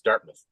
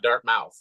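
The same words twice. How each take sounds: First: The second syllable is reduced to a weak 'muth'. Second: The second syllable has the full 'mouth' vowel. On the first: The speaker calls it right. "like the O in mouth isn't there" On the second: The speaker calls it wrong. "It's not Dartmouth"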